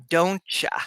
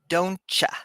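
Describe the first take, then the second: First: The word "you" is reduced to "ya". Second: The word "you" is reduced to "ya".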